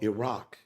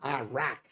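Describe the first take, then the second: First: The name has a local-style pronunciation. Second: The name has a typical American pronunciation. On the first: The speaker calls it right. "It's called Iraq. At least pronounce the damn name right" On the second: The speaker calls it wrong. "it's not Iraq"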